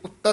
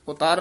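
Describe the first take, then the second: First: The second vowel is short. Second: The second vowel is long. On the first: The speaker calls it right. "ਇਹ ਉੱਤਰ ਉਚਾਰਨ ਕਰਨਾ" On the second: The speaker calls it wrong. "ਉਤਾਰ ਨਹੀਂ ਕਹਿਣਾ ਹੈ"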